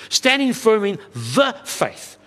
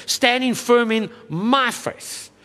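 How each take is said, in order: First: "the faith" given weight and drawn slower as the right reading; firm, measured "Standing firm in the faith", leaning on "the"; stress on the faith. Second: "my" drawn out slowly and leaned on in "in my faith"; slow down and lean hard on "my", the self-reliant reading; stress on my, the wrong reading. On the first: Pastor corrects the misreading for the congregation, measured and firm. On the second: Pastor shows the congregation the misreading, slow heavy "my". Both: Shown as a demonstration. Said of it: "I emphasize that word very deliberately".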